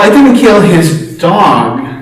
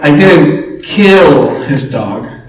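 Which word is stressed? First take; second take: dog; kill. First: The stress is on the word 'dog'. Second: The stress is on the word 'kill'. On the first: The speaker killed something else of his. "Well, what did you kill, right?" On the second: The speaker did something else to the dog. "What did you do, right?"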